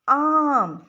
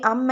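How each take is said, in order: First: The first vowel is long. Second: The first vowel is short. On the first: The speaker calls it right. "ये आ को लंबा किया हुआ है हमने" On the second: The speaker calls it wrong. "ना तो ये अम है"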